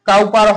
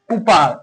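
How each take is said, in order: First: The first syllable rhymes with cow. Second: The first syllable rhymes with coo. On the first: The speaker calls it wrong. "এর উচ্চারণ কাউপার হবে না" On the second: The speaker calls it right. "এর উচ্চারণ কুপার হবে"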